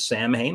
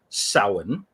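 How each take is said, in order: First: The word is pronounced the way it is spelled. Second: The word is pronounced unlike its spelling. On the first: This is the common pronunciation people use. The speaker calls it wrong. "which people tend to pronounce as Samhain, which is reasonable considering the pronunciation" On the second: This is the actual pronunciation of the word. The speaker calls it right. "But no, it is actually pronounced as Samhain"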